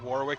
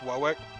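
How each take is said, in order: First: It is said in a standard, general accent. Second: It is said in a non-rhotic Rhode Island accent. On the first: "instead of saying Warwick" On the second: "it's Warwick. ... drop R's because it's a non-rhotic accent"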